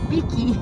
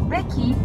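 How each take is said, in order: First: The first vowel sounds like 'i'. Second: The first vowel sounds like 'e'. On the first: This is how local people say the word. "para os nativos, forma correta da pronúncia... É piqui" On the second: This follows the written form of the word. "Porque é pequi que se escreve, então é pequi"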